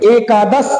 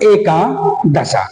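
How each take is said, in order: First: The word ends without an extra final vowel. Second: The word ends with an added final vowel. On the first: The speaker calls it right. "होना चाहिए एकादश" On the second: The speaker calls it wrong. "लेकिन प्रयोग होने लगता है एकादशा"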